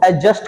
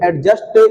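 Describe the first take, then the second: First: The d sound is left silent. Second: The d sound is clearly pronounced. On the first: The speaker calls it right. "डी की जो sound है उसे नहीं निकालना है" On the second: The speaker calls it wrong. "नहीं एडजस्ट जिसकी pronunciation है वो रॉन्ग है"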